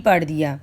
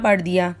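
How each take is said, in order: The two takes are said the same way.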